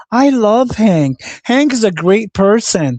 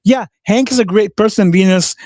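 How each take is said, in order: First: High, slow, drawn-out mock fan voice; mocking gushing imitation. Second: Sarcastic agreement. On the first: Mocking Venus's praise for Hank, high and slow. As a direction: parody her gushing, pitched up and slow. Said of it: "like, Venus says". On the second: Real, not acted. Sarcastic reply to Venus.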